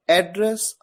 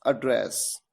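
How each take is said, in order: First: एड्रेस with stress on the first syllable, AD-dress, rising at the end; एड्रेस said as the noun, first syllable stressed; first reading of address. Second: एड्रेस with stress on the second syllable, ad-DRESS, falling and softer; एड्रेस said as the verb, last syllable stressed; second reading of address. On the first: Teacher showing the noun एड्रेस with its stress on AD. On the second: Teacher contrasting the verb एड्रेस with its stress on DRESS. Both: Shown as a demonstration. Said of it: "pronunciation different है".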